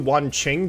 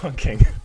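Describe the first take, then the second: First: The second syllable starts with a ch sound. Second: The second syllable starts with a hard k sound. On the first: The speaker calls it right. "that's just how you pronounce his name" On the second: The speaker calls it wrong. "an operator I refuse to pronounce correctly"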